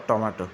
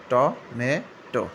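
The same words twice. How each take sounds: First: Tomato the British way, টমেটো with a short ending; British pronunciation. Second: Tomato the American way, টমেটো drawn out very slowly; American pronunciation. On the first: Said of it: "British উচ্চারণ". (British উচ্চারণে টমেটো) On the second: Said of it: "American". (American উচ্চারণে ধীরে টমেটো) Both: Shown as a demonstration.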